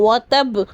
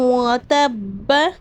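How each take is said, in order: First: The word ends on a consonant, with a stop. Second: The word ends on a vowel, without stopping. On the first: The reading stops at this word. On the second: The reading continues without a stop.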